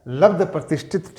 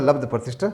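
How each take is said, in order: First: "लब्ध प्रतिष्ठित" with an extra -it ending; गलत रूप का उदाहरण. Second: "लब्ध प्रतिष्ठ" ending on ṣṭh, without -it; सही रूप का उदाहरण. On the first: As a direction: say "प्रतिष्ठित", ending in -it, as the faulty form. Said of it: "नहीं है". ("प्रतिष्ठित" के अंत में "इत" जोड़कर गलत रूप) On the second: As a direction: end "प्रतिष्ठ" on the consonant cluster, no -it. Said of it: "केवल लब्ध प्रतिष्ठ". ("प्रतिष्ठ" के अंत में "इत" के बिना सही रूप) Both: Shown as a demonstration.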